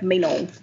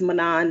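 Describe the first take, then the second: First: The name is said with a French pronunciation. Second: The name is said with an American pronunciation. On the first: "but I think it's like Manon" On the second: "Our American brain is Manon"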